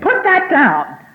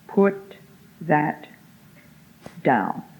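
First: The phrase is yelled loudly. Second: The phrase is said quietly and calmly. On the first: The speaker calls it wrong. "It's no good yelling at him across a room" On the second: The speaker calls it right. "by the quiet tone of voice that you are serious"

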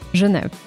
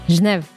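First: Every sound is pronounced, including the final vowel. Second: The final vowel is dropped at the end. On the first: This is how it is said in France. "En Francia se dice Genève. Se pronuncia todo" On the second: This is how it is said in Switzerland. "en Suiza dicen Genève"

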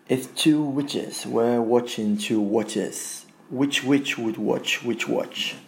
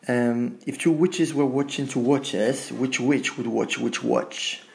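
First: It is said at a slower pace. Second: It is said at a faster pace.

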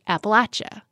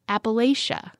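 First: It uses the local pronunciation of the word. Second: It uses the northern pronunciation of the word. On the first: This is the pronunciation used locally. "here on our show, we pronounce it Appalachia" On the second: This is the pronunciation used further north. "When you go north of the Mason-Dixon line, for example, most people say Appalachia"

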